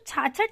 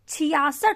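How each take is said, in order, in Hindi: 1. इसे दो अक्षरों में बोला जाता है, chhachhath। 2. इसे तीन अक्षरों में बोला जाता है, chhiyasath। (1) "साधारण भाषा में हम लोग छाछठ बोलते हैं" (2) "मानक उच्चारण है वो है छियासठ"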